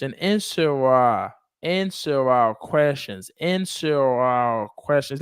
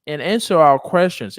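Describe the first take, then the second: First: "answer our questions" drawn out, words linked; slow linked drill. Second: Said in the usual way. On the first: Shown as a demonstration. Teacher modelling linking for a student, slow drawn-out drill. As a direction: stretch "answer our questions" slowly for repeating.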